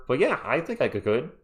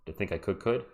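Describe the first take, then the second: First: Said in the usual way. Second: I think I could said very low and soft; deep voiceover voice. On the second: Shown as a demonstration. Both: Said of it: "would have to be deeper voice stuff".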